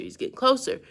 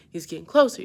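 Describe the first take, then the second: First: Closer said much higher in pitch; tense repeat, pitched way up; rising alarm. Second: Said in the usual way. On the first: Real, not acted. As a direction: let the panic lift the voice up high. Alligator gaining on them.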